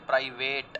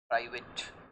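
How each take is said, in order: First: The last syllable has a full 'ate' vowel. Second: The last syllable has a short, reduced vowel. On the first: The speaker calls it wrong. "If you speak it like this then it is wrong." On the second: The speaker calls it right. "This word must be प्राइवेट।"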